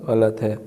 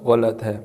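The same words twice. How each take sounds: The two takes are said the same way.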